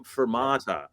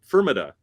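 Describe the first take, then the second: First: "fermata" as fer-MAH-ta, long open stressed MAH; correct Italian fermata. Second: "fermata" as FUR-muh-tuh, stress on the first syllable; mispronounced fermata. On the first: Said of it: "I mispronounce words". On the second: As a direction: say "fermata" wrongly, leaning on FUR. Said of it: "not fermata". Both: Shown as a demonstration.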